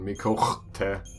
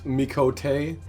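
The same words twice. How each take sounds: First: The word has a harsh catch in the middle. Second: The word is said smoothly without a catch.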